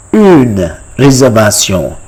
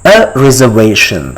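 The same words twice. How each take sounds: First: "Une réservation" with rounded u and French r; French pronunciation. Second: Said in the usual way. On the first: Shown as a demonstration. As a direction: teach "Une réservation" ending in nasal -syon. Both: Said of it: "How do you say it in French".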